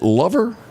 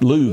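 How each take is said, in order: First: The first vowel sounds like the vowel in 'love'. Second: The first vowel sounds like the vowel in 'loo'. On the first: "do you pronounce it Lover?" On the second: "that's how you pronounce it?"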